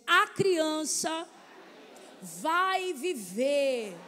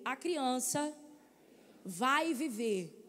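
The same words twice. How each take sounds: First: It is said boldly, full of faith. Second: It is said plainly, without boldness.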